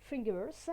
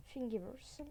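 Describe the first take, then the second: First: Thingiverse louder, in a French speaker's English accent. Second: Said in the usual way. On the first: Shown as a demonstration. Tutorial host showing off the site's name, English accent. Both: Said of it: "avec mon accent anglais".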